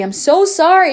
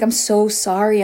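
First: Higher, louder repeated apology; retold pleading apology, voice raised; emphatic apology. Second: Said in the usual way. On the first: Retold apology, repeated more forcefully.

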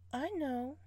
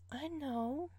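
Both takes have the same delivery.

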